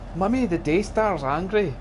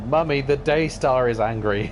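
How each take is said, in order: First: It is said in a put-on child's voice. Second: It is read in a normal adult voice.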